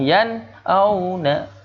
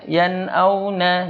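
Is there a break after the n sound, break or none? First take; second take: break; none. First: It is said with a break after the n. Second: It is said joined, with no break. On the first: The speaker calls it wrong. "Jangan yan auna" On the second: The speaker calls it right. "Kalau yang ini jangan dikasih jeda ya"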